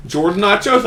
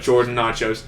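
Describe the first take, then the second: First: Higher, asking "Jordan nachos?" with a rising end; a server's upturned "Jordan nachos?" at the counter; questioning tune. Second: Just confirm it, let "nachos" drop down; a settled, matter-of-fact "Jordan nachos." answer; flat confirming tune. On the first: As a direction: staff checking the usual order, voice lifting on "nachos". Waiter's question, then his answer. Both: Retold or imitated.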